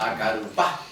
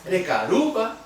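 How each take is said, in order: First: "Acarupa" with the final "pa" sounded and stressed. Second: "Recarupa" stressed high on "ru", unstressed "pa"; unstressed question pa. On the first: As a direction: hit the last syllable of "Acarupa". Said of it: "si yo lo hago sonar". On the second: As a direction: ask "Recarupa" with the accent before the final "pa". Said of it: "ahí estoy preguntando". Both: Shown as a demonstration.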